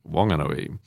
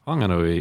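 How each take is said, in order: First: "Wanganui" with no H or F sound; local silent H. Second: "Whanganui" with the Wh sounded as F. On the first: Priest showing the local pronunciation, plain W in "Wanganui". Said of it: "if you're in the Wanganui region". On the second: Priest showing what not to say locally, F sound in "Whanganui". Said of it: "you don't say". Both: Shown as a demonstration.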